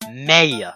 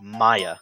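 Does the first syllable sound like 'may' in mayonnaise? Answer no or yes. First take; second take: yes; no. First: The first syllable sounds like 'may' in mayonnaise. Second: The first syllable does not sound like 'may'. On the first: The speaker calls it right. "It's pronounced Maya, like mayonnaise" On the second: The speaker calls it wrong. "you don't pronounce it as Maya"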